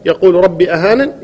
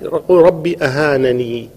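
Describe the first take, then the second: First: The word ends without a final 'ee' vowel. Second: The word ends with a final 'ee' vowel. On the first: "وحذفها" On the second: "بإثبات الياء"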